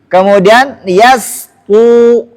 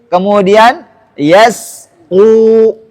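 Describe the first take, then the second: No difference in how they are said.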